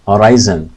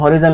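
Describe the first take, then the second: First: The middle vowel is a long 'eye' sound. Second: The middle vowel is a short 'i' sound. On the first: The speaker calls it right. "इसको pronounce करेंगे हम हॉराइजन" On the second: The speaker calls it wrong. "ये हॉरिजन line नहीं है"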